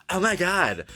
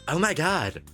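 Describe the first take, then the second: The two takes are said the same way.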